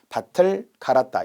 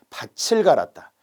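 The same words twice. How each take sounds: First: The final t links plainly into the vowel. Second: The final t changes to a ch sound. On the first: The speaker calls it right. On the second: The speaker calls it wrong.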